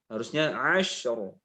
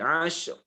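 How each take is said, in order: First: The final r is held and flows on. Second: The final r is cut very short. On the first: The speaker calls it right. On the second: The speaker calls it wrong. "Pendek sekali"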